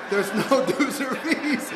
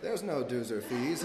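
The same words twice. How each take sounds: First: High, loud, drawn-out mock chant; group echo. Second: Slow, measured hypnotic suggestion; Jedi mind trick. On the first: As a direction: parrot it slowly like an entranced crowd. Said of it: "And everyone's like". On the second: Retold or imitated. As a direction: plant the idea slowly, calmly. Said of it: "Jedi mind trick where they're like".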